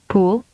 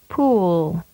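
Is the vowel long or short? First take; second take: short; long. First: The vowel is held briefly. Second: The vowel is prolonged. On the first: "with a short vowel duration first" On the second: "and then with a longer duration"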